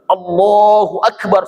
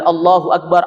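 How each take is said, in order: First: It is said loudly and over-articulated. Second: It is said at a normal loudness.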